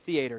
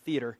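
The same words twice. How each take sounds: First: It is said with a Southern US pronunciation. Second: It is said with a general non-Southern pronunciation. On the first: The speaker calls it right. "in the South we say theater" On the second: The speaker calls it wrong. "not theater"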